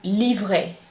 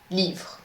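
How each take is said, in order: First: The final E is pronounced as a vowel. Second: The final E is silent. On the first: The speaker calls it wrong. "You cannot say livrer" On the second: The speaker calls it right. "The correct pronunciation is livre"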